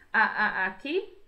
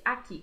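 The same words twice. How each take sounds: First: "a, a, aqui" with a stuttered start, the last syllable rising; stuttering from fear. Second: Said in the usual way. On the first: Shown as a demonstration. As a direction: stammer "a, a" before "aqui", frightened. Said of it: "pra dizer que ele está gaguejando". (gaguejando de medo: "a, a, aqui") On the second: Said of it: "Ele não disse".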